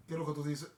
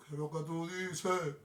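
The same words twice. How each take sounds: First: Said in the usual way. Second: Slow, stretched-out show title; drawn-out catchphrase. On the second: Acted. Host closing the show with its title, drawn out. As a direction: draw out "tú dices" like a slogan.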